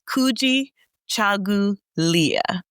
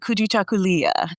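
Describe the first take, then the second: First: The word is said slowly, part by part. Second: The word is said quickly and smoothly. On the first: "I'll say it slowly" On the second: "get flavorful with it"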